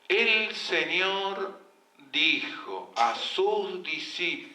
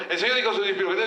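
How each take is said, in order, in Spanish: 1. Se lee muy despacio, arrastrando las palabras. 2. Se lee muy rápido, atropellando las palabras. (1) "es imbancable, no termina más" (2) "Lo que tampoco"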